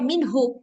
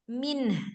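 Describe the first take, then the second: First: The word ends with an added hu syllable. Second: The word ends on a held n sound. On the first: The reciter carries on without pausing. The speaker calls it wrong. "nggak boleh minhu. Kalau minhu salah" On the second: The reciter pauses at this word. The speaker calls it right. "Contoh min"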